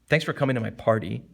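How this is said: It is said in a resentful tone. "you could sound something resentful. ... That's resentful"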